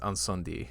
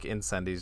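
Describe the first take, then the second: First: It is pronounced the French way. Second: It is pronounced the English way. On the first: The speaker calls it right. "I have to be a, a pronunciation douche with that one" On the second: The speaker calls it wrong. "sounds so like weird to me to hear now"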